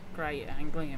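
It is said in an Australian accent. "that was a shitty Australian accent"

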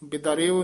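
The word is said in one unbroken piece. The speaker calls it wrong. "ਬਿਦਰਿਓ ਨਹੀਂ ਕਹਿਣਾ"

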